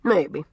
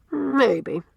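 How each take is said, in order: First: Quiet echo. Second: First maybe set higher, falling; thoughtful maybe. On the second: Cornelia muses on Anne's words, raised thoughtful maybe. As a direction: Cornelia half agreeing, first maybe up high. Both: A narrator's reading. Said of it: "assented Miss Cornelia".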